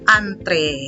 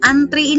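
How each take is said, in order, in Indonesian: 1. Kata itu berakhir dengan vokal 'eh'. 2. Kata itu berakhir dengan vokal 'ee'. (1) "yang benarnya adalah antre" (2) "antri ini adalah yang salah"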